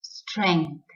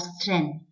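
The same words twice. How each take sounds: First: Strength with an ng sound, STRENG-th; correct pronunciation. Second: Strength with plain n, STRENTH; wrong pronunciation. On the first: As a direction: hum the ng inside Strength. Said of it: "the correct pronunciation is strength". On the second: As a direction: drop the ng sound from strength. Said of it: "and not strength". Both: Shown as a demonstration.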